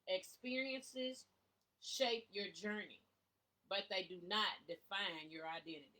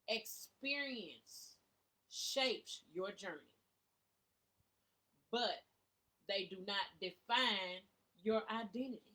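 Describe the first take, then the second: First: It is said at normal speed. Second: It is said slowly.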